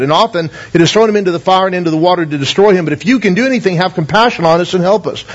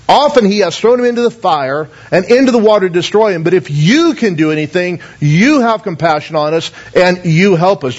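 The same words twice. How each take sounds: First: Said in the usual way. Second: "you" stressed each time in "if you can do anything"; pointing the blame onto "you"; emphasis on you. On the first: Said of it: "so you'll see the emphasis here". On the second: Shown as a demonstration. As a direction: lean on every "you". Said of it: "I've kind of added a little to the verse so you'll see the emphasis".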